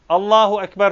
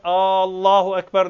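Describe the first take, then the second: First: The opening vowel of Allahu is short. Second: The opening vowel of Allahu is drawn out. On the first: It is a statement that God is the greatest. The speaker calls it right. "Allahu Ekber sözü" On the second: It asks whether God is the greatest. The speaker calls it wrong. "bazı uzatmalar yapsa, mesela birisi başlarken Allahu Ekber dese caiz değil"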